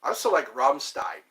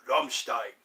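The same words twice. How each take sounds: First: Said in the usual way. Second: "Rammstein" said the German way, with sh in stein; German pronunciation. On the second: Shown as a demonstration.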